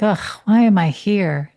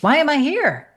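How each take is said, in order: First: It sounds heavy and despairing. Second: It sounds light and curious.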